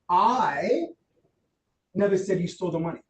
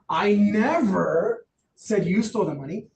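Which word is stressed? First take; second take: I; never. First: The word "I" carries the strongest stress. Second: The word "never" carries the strongest stress. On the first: Someone other than the speaker said it. "What does that imply? It wasn't me" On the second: It was not said at any time. "Not at all"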